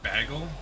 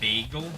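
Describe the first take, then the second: First: The first syllable sounds like the word bag. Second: The first syllable does not sound like bag. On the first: "I pronounce it bagel here" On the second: "instead of bagel"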